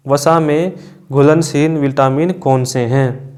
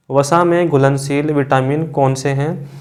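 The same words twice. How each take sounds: The two takes are said the same way.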